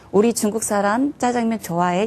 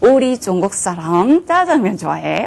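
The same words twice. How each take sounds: First: It is said with flat, ordinary Korean pitch. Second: It is said with Chinese-like tones on the syllables. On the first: "우리는 ... 이렇게 얘기할 거를" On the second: "성조를 집어넣어서"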